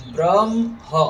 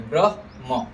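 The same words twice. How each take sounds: First: ब्रह्म said as "bram-ha", म ahead of ह; wrong pronunciation. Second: ब्रह्म said as "brah-ma", ह before म; half ह first. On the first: Teacher shows the mistake in ब्रह्म, wrong-order demo. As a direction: swap the sounds in ब्रह्म: hum the म, then add "ha". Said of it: "ऐसे बोलेंगे तो गलत हो जाएगा". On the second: Teacher shows students correct ब्रह्म, ह-then-म demo. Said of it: "ह आधा बोलेंगे". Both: Shown as a demonstration.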